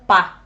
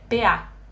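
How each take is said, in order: First: It is read as a single word. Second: It is read letter by letter. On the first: The reader was not told it is an abbreviation. The speaker calls it wrong. "o programa leitura de tela vai ler, ler como P A" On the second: The reader was told it is an abbreviation. The speaker calls it right. "o correto é P A, para indicar que se trata de uma abreviação"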